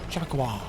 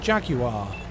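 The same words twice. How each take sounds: First: It is said in an imitated American accent. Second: It is said in the speaker's non-American accent. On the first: "they would pronounce it jaguar" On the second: "how I say jaguar"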